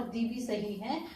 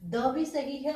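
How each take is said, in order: First: "the" with a long ee sound; "the" as thee. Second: "the" with a short schwa, thuh. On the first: Teacher telling students both are correct, "the" as thee. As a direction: pronounce "the" to rhyme with see. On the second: Teacher telling students both are correct, "the" as thuh. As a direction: pronounce "the" as thuh, vowel short. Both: Shown as a demonstration. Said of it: "वैसे दोनों ही सही हैं".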